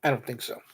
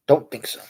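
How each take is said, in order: First: Softly, under the breath, a muttered aside; quiet aside. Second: Said in the usual way. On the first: Real, not acted. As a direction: drop the voice to a near murmur for I don't think so.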